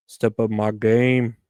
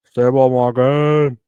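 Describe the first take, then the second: First: Said in the usual way. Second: Slow, louder hyped repeat. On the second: Shown as a demonstration. Talking to the camera, pumping himself up, slow and loud. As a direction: hype yourself up, slow and loud.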